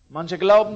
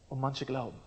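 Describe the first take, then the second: First: Glauben punched loud, manche light; stress on glauben. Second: Manche stressed, glauben dropped soft; quietly weight the word manche. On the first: Preacher to the congregation, stressing glauben loudly. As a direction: lean hard on glauben. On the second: Preacher to the congregation, quietly stressing manche. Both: Shown as a demonstration.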